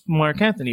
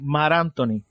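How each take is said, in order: First: The name is said with a plain English accent. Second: The name is said with a Latino accent, dropping k.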